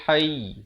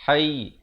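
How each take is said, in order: No difference in how they are said.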